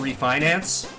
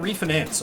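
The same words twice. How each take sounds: First: It uses the usual standard pronunciation. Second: It uses the Colorado regional pronunciation. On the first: The speaker calls it right. "I'm like, it's a refinance? ... that's not what you said!" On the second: The speaker calls it wrong. "I'd have to be people like, oh yeah, they're just doing a refinance"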